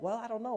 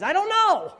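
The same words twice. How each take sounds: First: Said in the usual way. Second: Loud, high burst of bafflement; exasperated shout. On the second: Acted. Preacher answering why Jesus would do that, exasperated shout. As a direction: throw it up high and holler.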